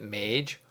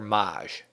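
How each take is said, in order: First: The word does not rhyme with 'fromage'. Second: The word rhymes with 'fromage'. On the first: "Is it Mage or Maj?" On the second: "it sounds like the name of the French server Le Grand Fromage"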